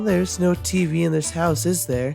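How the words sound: It is said in another character's voice.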